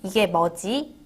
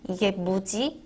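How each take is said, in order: First: The last word is said clearly as 'mwoji'. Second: The last word is said loosely as 'muji'.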